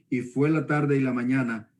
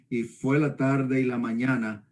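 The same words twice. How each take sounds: The two takes are said the same way.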